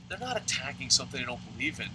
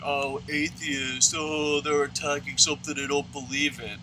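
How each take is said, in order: First: Said in the usual way. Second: Mocking Christians. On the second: Christians complaining about atheists, mocking imitation. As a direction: imitate a whiny objector, stretching the words. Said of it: "Christians, like".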